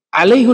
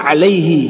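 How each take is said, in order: First: The word ends with a 'hu' sound. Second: The word ends with a 'hi' sound. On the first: The speaker calls it wrong. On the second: The speaker calls it right. "Yang benar itu alaihi"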